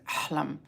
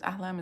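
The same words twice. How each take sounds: First: It is said with a thick Arabic accent. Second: It is said with a plain English accent.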